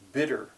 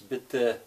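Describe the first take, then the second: First: The word ends with an R sound. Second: The word ends without any R sound. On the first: The speaker calls it wrong. "it's tempting teaching somebody who speaks English to think of the word bitter" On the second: The speaker calls it right. "there's no R sound at all on the end of that"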